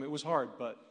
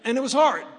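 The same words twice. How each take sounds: First: Said in the usual way. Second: "hard" cracks way higher and louder; husband on a foster care panel, voice cracking with emotion; voice breaking. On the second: Real, not acted. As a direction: fight through tears on "hard". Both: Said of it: "supposed to be the emotional support".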